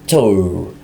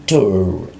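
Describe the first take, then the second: No difference in how they are said.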